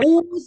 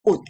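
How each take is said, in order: First: The final consonant is released with a vowel. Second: The word ends in a short unreleased t. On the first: The speaker calls it wrong. "bukan 우스야" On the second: The speaker calls it right. "bunyinya T. Jadi ini 옷 aja"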